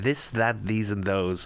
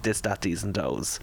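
First: The words begin with a 'th' sound. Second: The words begin with a 'd' sound. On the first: This is how the speaker talks now. The speaker calls it right. "And now I'm" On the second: This is how the speaker talked as a child. The speaker calls it wrong. "as a kid, I grew up and I was not able to say"

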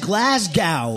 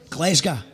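First: It is said with an American accent. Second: It is said with a local Scottish accent. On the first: The speaker calls it wrong. "The way that Americans say it is Glasgow" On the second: The speaker calls it right. "it's actually Glasgow"

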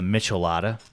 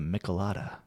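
First: The start sounds like the word 'Michelin'. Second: The start does not sound like 'Michelin'. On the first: The speaker calls it wrong. "Or for some of you, the Michelada. I don't know why you would call it that way" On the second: The speaker calls it right. "I think it's pronounced the Michelada"

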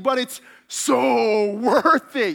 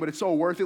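First: It is said with strong, weighty emphasis. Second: It is said plainly, without much weight.

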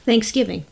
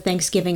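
First: The stress is on the second syllable. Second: Neither syllable is clearly stressed. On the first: "I'm going to put emphasis on giving" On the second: "I didn't notice any emphasis on either syllable that time"

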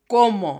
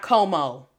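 First: The first o is a closed vowel. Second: The first o is an open vowel. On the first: The speaker calls it right. "the O es cerrada" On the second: The speaker calls it wrong. "Not como"

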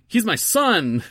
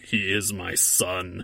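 First: The voice sounds light, casual and ordinary. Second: The voice sounds deep, grave and intimidating. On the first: "He just sounds like a dude" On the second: "he doesn't sound like"

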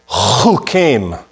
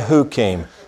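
First: The word begins with a throaty ch sound. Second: The word begins with a soft h sound. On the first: The speaker calls it right. "I want you to say chukim" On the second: The speaker calls it wrong. "don't say hukim"

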